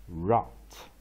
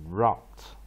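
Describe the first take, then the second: The two takes are said the same way.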